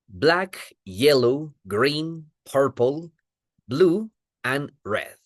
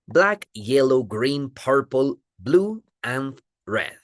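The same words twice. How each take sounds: First: The colors are said at a slower pace. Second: The colors are said at a faster pace.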